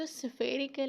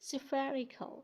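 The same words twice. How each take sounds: First: "spherical" as sfay-ri-kal, read as spelt; mispronounced "spherical", sfay at the front; wrong pronunciation. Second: "spherical" as SFERR-i-kul, short vowel; correct pronunciation. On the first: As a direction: say "spherical" with a long ay. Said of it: "इसको spherical नहीं पढ़ना". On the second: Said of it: "the right pronunciation is". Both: Shown as a demonstration.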